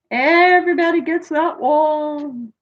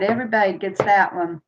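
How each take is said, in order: First: Playful singsong. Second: Said in the usual way. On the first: Real, not acted. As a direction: stretch it out high, almost chanting. Playfully repeats it, drawn out and high.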